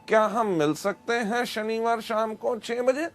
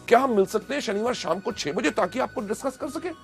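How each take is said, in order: First: It is said without excitement, flatly. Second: It is said with excitement and energy.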